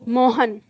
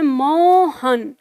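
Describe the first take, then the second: First: The vowels are said at normal, short length. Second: A vowel is stretched long, like a distant call. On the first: It is read as written, without the sign. "पढ़ने वाला इसको क्या पढ़ेगा" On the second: The person being called is far away. "Mohan दूर है तो हम बोलते हैं"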